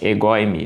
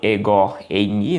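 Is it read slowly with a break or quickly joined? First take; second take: quickly; slowly. First: The two words are read quickly as one. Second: The two words are read slowly and separately.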